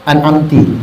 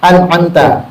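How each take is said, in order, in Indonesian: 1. Kata ini berakhir dengan vokal i. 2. Kata ini berakhir dengan vokal a. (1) "Mulutnya dibaca an'amtu, an'amti. Tak boleh" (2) "Mestinya kita baca apa?"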